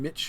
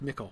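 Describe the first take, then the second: First: The middle consonant is a soft 'ch' sound. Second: The middle consonant is a hard 'k' sound. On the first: This is the older Anglo-Saxon form. "in Anglo-Saxon would have been Mitch, like the C becomes soft" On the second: This is the later English place-name form. "It's pronounced Mickle"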